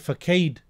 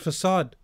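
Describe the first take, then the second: First: The word is pronounced as it is spelled. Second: The word is pronounced the usual way. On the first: The speaker calls it wrong. "He may say facade, reading the word facade" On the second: The speaker calls it right. "but the word is facade"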